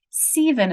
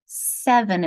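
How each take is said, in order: First: "Seven" said as "seeven", first vowel long. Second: Said in the usual way. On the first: Shown as a demonstration. Teacher tries the long-vowel split, "Seven" as "seeven". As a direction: read "Seven" with a long EE, like "see-ven". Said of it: "You first try this one". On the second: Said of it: "let's try my division on the other side".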